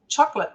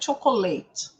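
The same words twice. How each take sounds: First: It is said with English pronunciation. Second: It is said with Portuguese pronunciation. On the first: The speaker calls it right. "Mas como é que a gente fala?" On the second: The speaker calls it wrong. "não é"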